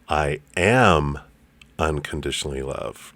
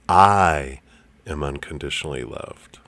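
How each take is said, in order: First: The stress is on the word am. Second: The stress is on the word I.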